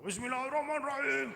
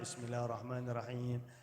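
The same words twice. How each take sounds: First: It is recited very loudly. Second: It is recited quietly, just audible.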